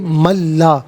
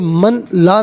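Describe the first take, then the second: First: The n merges into a doubled l sound. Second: The n is pronounced separately before the l. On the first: The speaker calls it right. "बल्कि मल्ला" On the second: The speaker calls it wrong. "इसे मन ला नहीं पढ़ेंगे"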